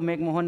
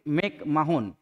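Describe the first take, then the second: First: The middle part is said as a single 'mo' sound. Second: The middle part is said as 'ma-hon'. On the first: This is the form commonly used. The speaker calls it wrong. "हालांकि नाम तो मैकमोहन नहीं है" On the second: This is the person's actual name. The speaker calls it right. "तो उनका नाम था sir Henry मैकमाहोन"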